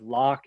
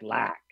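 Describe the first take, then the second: First: Said in the usual way. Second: Lock said with a fronted vowel so it sounds like lack; fronted Chicago vowel. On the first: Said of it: "So instead of lock". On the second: Shown as a demonstration. Linguist shows how Chicagoans say lock, like lack. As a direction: push the o in lock forward to an a. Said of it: "So instead of lock, it might sound more like lack".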